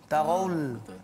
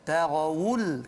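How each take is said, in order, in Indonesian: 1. Bunyi 'wu' ringan dan tidak jelas. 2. Bunyi 'wu' ditekan dan jelas. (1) "takut jadi" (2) "kena tekan sikit supaya dia jelas"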